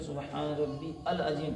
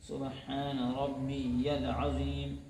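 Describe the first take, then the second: First: Rabbi and al are said as separate words. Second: Rabbi runs into the next word as rabbiyal. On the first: The speaker calls it wrong. "सुबहान रब्बी अल अज़ीम कहना गलत है" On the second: The speaker calls it right. "सही यह है कि सुबहान रब्बियल अज़ीम"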